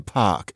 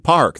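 First: The r is dropped, British style. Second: The r is pronounced, American style. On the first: "they say park" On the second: "So we say park"

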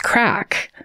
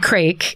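First: The vowel is short, rhyming with back. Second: The vowel is long, rhyming with bake. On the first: The speaker calls it right. "I didn't know how to pronounce the Irish word. It's crack" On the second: The speaker calls it wrong. "I said crake because that's how it's spelled"

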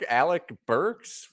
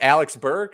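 First: The surname ends with an s sound. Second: The surname ends without an s sound. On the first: The speaker calls it right. "because it's Alec Burks" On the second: The speaker calls it wrong. "I got Alex Burke instead of a Alec Burks"

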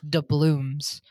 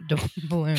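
First: The word ends with an M sound. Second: The word ends with an N sound. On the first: The speaker calls it right. "I'm pretty sure it's doubloons" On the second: The speaker calls it wrong. "not doubloons"

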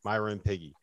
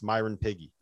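First: The phrase is said fast with the words run together. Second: The same.

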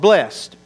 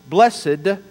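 First: It is said the American way. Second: It is said the British way. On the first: "if you're in America" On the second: "if you're in the UK"

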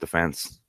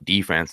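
First: It is said the Irish way. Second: It is said the American way.

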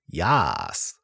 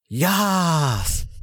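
First: The word is said flatly, without enthusiasm. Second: The word is said with lively enthusiasm. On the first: The speaker calls it wrong. "If you didn't read that with enthusiasm" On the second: The speaker calls it right. "I'll do it again"

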